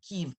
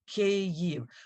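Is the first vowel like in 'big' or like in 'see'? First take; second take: see; big. First: The first vowel sounds like the vowel in 'see'. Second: The first vowel sounds like the vowel in 'big'. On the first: The speaker calls it wrong. "It's not" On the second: The speaker calls it right. "it is two syllables. The first A sound is like in the word big"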